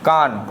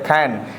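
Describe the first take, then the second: First: The vowel is an open back 'ah' sound. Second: The vowel is a flat front 'a' sound. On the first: The speaker calls it wrong. "ना कि कान। कान हम नहीं पढ़ेंगे" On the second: The speaker calls it right. "खैन पढ़ते हैं इसे"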